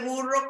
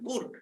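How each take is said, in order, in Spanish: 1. La palabra termina en la vocal o. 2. La palabra no termina en vocal. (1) "No se dice burro con O" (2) "le quitan la vocal al final"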